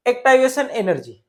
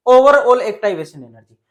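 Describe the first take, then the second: First: Said in the usual way. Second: "overall" punched louder, falling at the end; teacher adds "overall" with a loud, punched stress. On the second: Shown as a demonstration. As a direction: hit "overall" hard to correct yourself.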